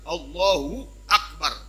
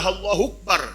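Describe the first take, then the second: First: A glottal stop separates Allahu from akbar. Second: Allahu runs into akbar without a glottal stop. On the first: The speaker calls it right. "Mesti ada kata ada huruf hamzah al-qata. Hamzah hamzah yang memisahkan kata Allah dan kata akbarnya" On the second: The speaker calls it wrong. "Nggak boleh Allahu akbar, hilang alif hamzahnya"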